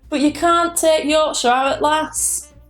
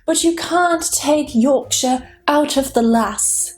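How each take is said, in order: First: It is said in a Yorkshire accent. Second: It is said in a standard British accent. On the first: "But in a Yorkshire accent, it would be something like" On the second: "That's how it would be"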